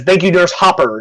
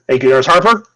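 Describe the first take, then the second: First: "Hopper" in place of Harper, no r in the first syllable; mispronounced name. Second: Said in the usual way. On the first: Acted. Guard thanks the nurse, getting "Hopper" wrong. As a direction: say "Hopper" with an open "hop". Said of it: "no, he says, "Thank you, Nurse Hopper". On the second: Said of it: "Or, no, he says".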